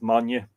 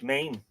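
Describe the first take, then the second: First: The name is said as two syllables. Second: The name is said as one syllable. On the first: The speaker calls it right. "I suspect the proper pronunciation of that is Manya" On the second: The speaker calls it wrong. "It looks like Maine, as in the state"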